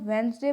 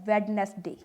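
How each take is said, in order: First: The d is silent, giving two syllables. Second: The d is pronounced, giving three syllables. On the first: The speaker calls it right. "इसे हम वेंसडे पढ़ते हैं" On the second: The speaker calls it wrong. "Not वेडनेसडे"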